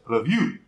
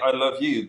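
First: The stress is on you. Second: The stress is on love.

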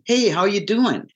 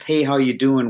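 First: It is said warmly, with real interest. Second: It is said flatly, without real interest.

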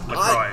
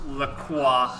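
First: The name is pronounced the English way. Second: The name is pronounced the French way. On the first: The speaker calls it right. "It is Lacroix" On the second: The speaker calls it wrong. "Thank you for the French pronunciation"

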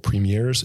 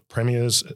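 First: It is said the Canadian way. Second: It is said the Australian way.

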